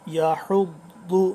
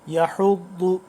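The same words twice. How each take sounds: The two takes are said the same way.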